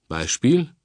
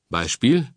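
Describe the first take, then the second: Both takes have the same delivery.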